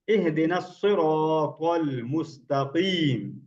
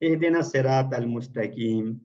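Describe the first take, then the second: First: The s and t sounds are heavy and full. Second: The s and t sounds are light and thin. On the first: The speaker calls it right. "इसमें अलग अलग साउंड और bold sound है सारी" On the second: The speaker calls it wrong. "ऐसे पढ़ देते हैं, तो ये गलत हो जाता है"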